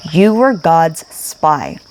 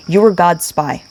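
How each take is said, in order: First: GOD'S SPY drawn out slowly and deliberately; very slow, solemn weight on "God's spy"; slow emphatic repeat. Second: Said in the usual way. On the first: Real, not acted. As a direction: stretch out "You were God's spy", weighting each word.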